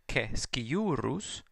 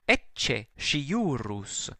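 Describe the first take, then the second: First: The c sounds are hard, like k. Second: The c sounds are soft, not like k. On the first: This is the restored classical pronunciation. "because the C is always pronounced hard" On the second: This is the church pronunciation. "the softening of certain letters like the C"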